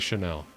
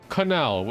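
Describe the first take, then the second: First: The name is said with a sh sound. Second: The name is said like the word canal.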